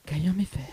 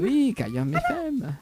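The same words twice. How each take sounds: First: Said in the usual way. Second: Slow, high sensual drawl on Cayam F M. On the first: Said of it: "tu vois". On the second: Shown as a demonstration. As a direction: purr the station name slowly. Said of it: "j'ai une voix sensuelle".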